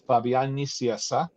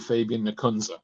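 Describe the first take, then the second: First: The name is pronounced the Spanish way. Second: The name is pronounced the American way. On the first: "in Spanish" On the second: "And in American"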